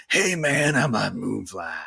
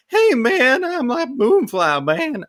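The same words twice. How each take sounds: First: Low, gravelly drawn-out creature; gravelly Moonfly voice. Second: High-pitched, loud, stretched-out creature; alternative Moonfly voice. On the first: Player demonstrates the voice picked for the game, gravelly. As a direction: growl it lazily, sinking lower at the end. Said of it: "Ended with the gravelly one". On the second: Player tries out a rejected character voice, high and loud. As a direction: squeak it out high and slow. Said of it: "wondered if I should do that voice of". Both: Shown as a demonstration.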